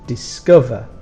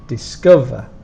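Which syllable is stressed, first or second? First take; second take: second; second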